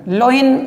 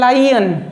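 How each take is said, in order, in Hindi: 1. यह शब्द 'low' जैसा शुरू होता है, बोला जाता है 'loin'। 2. यह शब्द 'lie' जैसा शुरू होता है, बोला जाता है 'lion'। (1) "लोइन गलत बोलते हो" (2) "शुद्ध है लायन"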